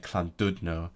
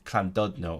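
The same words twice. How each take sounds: First: It is said in a Manchester accent. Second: It is said in a general English accent. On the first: "if you're from Manchester" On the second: "English people like to say the "sir" as a "clr,""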